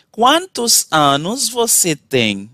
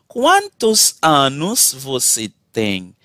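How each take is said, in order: Both takes have the same delivery.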